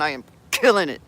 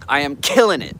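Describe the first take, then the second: First: A bit faster, through a clenched jaw. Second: Said in the usual way. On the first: Shown as a demonstration. Showing the chat how to say the affirmation, jaw clenched. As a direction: grit your teeth and spit it out. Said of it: "clench your jaw a little bit and get a nice curse on". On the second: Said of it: "clench your jaw a little bit".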